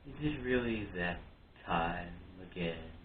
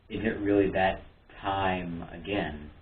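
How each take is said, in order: First: It is said in a put-on character voice. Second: It is said in the speaker's ordinary voice.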